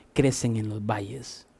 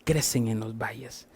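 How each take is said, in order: First: Soft murmur. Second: Hushed, breathy whispered repeat of crecen en los valles. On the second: Pastor repeating the lesson to the congregation, whispered. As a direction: lean in and whisper it like a secret. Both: Shown as a demonstration.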